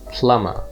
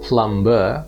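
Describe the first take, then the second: First: The B sound is left silent. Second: The B sound is clearly pronounced. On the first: The speaker calls it right. "the B is silent, ... but it's plumber" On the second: The speaker calls it wrong. "so it's not plumber"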